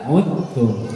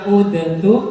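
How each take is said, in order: First: The d merges fully into the t. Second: The d is pronounced before the t. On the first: The speaker calls it right. "tapi dibaca untung" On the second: The speaker calls it wrong. "bukan dibaca udentum"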